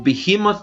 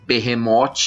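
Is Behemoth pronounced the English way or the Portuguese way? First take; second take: English; Portuguese. First: The word is pronounced with English sounds. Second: The word is pronounced with Portuguese sounds. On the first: "prefiro usar a pronúncia em inglês mesmo" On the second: "que seria em português"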